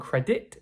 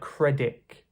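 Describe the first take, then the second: First: The final t is fully pronounced. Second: The final t sounds like a k. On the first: "rather than" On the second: "it sounds a bit like"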